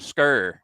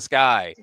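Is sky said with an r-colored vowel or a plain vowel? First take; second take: r-colored; plain. First: The vowel is r-colored, like skir. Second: The vowel is a plain diphthong. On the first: The speaker calls it wrong. "I've heard people from Baltimore" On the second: The speaker calls it right. "instead of sky"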